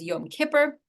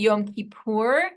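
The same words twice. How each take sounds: First: It is said the older Ashkenazi American way. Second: It is said the modern Israeli Hebrew way. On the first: This is the older traditional American pronunciation. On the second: This follows modern Israeli norms. "switched to ... as a response to modern Hebrew becoming the norm"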